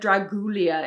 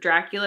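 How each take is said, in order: First: The name is said with altered middle sounds. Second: The name is said with its usual sounds. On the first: This is how the actor in the film said it. The speaker calls it wrong. "mispronounced Dracula. He said Dragulia" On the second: This is the expected way to say the name. The speaker calls it right. "instead of Dracula"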